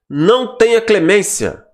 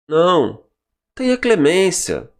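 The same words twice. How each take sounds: First: It is said without a pause after não. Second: There is a pause after não.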